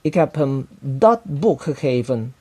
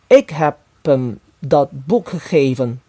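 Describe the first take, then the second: First: The word boek carries the main stress. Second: The word ik carries the main stress. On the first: The book, not something else, was given. "buku itu dan bukan barang lainnya" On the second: I, and not someone else, gave it. "Saya dan bukan orang yang lainnya yang telah memberinya buku itu"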